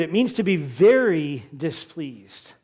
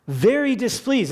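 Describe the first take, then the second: First: Said in the usual way. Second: "Very" pitched high and hit hard; stress on VERY. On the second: Shown as a demonstration. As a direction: lean hard on "Very" in "Very displeased".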